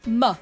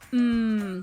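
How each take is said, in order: First: An m sound followed by a short uh vowel. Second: A held m sound with no vowel after it. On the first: The speaker calls it wrong. "some people say m, uh" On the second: The speaker calls it right. "instead of saying the mm"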